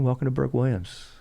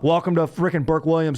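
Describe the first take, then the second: First: It is said calm and relaxed. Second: It is said loud and fired up.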